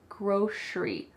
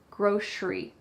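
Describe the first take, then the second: First: The middle consonant is an sh sound. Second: The middle consonant is an sh sound.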